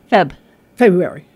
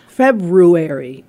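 First: It is said fast and the first r drops out. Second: The r after the b is clearly pronounced. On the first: "If you say it fast" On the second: "It's hard to say February correctly because the R's in there"

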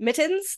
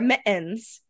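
First: The T sound is clearly pronounced. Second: The T is replaced by a glottal stop. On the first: "people don't wear mittens" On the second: "they have a glottal stop"

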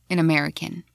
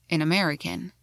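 The two takes are said the same way.

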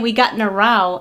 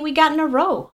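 First: Row is said unlike rowing a boat. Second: Row is said like rowing a boat. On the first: This is how other people say it. "I've heard people say" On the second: This is how the speaker says it. "I say"

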